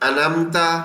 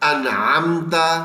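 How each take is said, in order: First: The ain sound in the middle is left out. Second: The ain sound in the middle is clearly pronounced. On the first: The speaker calls it wrong. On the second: The speaker calls it right.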